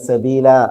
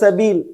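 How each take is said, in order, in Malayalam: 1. വാക്ക് നീട്ടിയ 'അ' സ്വരത്തിലാണ് അവസാനിക്കുന്നത്. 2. വാക്ക് അവസാന വ്യഞ്ജനത്തിലാണ് അവസാനിക്കുന്നത്. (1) "വിശുദ്ധ ഖുർആൻ ഓതുമ്പോ ... അങ്ങനെ ഓതും" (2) "ഫഅദല്ലൂന സബീൽ അങ്ങനെ വായിക്കുക"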